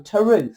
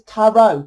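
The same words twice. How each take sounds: First: Tarot ending in an OO, like truth; variant pronunciation. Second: Tarot ending in an open OH; usual pronunciation. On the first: Reader showing another way of saying the card's name, Tarot as tuh-ROO. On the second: Reader showing one way of saying the card's name, Tarot as TARR-oh. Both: Shown as a demonstration. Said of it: "Different ways of saying it".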